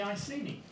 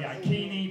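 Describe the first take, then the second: First: The middle consonant is an S sound. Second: The middle consonant is a K sound. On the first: The speaker calls it wrong. "require me to slightly mispronounce some of the words" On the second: The speaker calls it right. "More accuracy, they're actually called the Ikeni"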